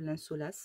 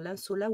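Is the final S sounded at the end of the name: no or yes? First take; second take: yes; no. First: The name ends with a final S sound. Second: The name ends without a final S sound.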